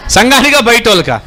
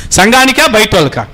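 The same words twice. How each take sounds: The two takes are said the same way.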